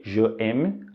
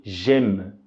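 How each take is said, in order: First: "Je aime" com as duas palavras separadas, sem contração; je aime separado. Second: "J'aime" numa sílaba só, ʒem, sem o e do je; j'aime contraído. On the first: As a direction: diga "Je aime" pronunciando o je inteiro antes do aime. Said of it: "que se pronuncia". ("Je aime" sem elisão, je e aime separados) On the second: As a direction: diga "J'aime" colando o j direto no aime. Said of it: "E aí a pronúncia fica". ("J'aime" com elisão, numa só sílaba) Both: Shown as a demonstration.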